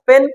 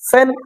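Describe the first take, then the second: First: The p is plain, without a puff of air. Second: The p has a strong puff of air. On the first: "প" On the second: "প থেকে ফ"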